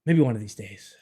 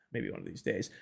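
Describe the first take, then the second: First: Said in the usual way. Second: Soft resigned echo; wistful mutter. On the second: Real, not acted. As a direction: murmur it to yourself, trailing off. Repeats line softly.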